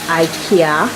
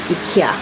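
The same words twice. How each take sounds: First: IKEA is said the American way. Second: IKEA is said the local way. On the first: "some of you dears in the U S pronounce as IKEA" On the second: "here we pronounce, most of us will pronounce as IKEA"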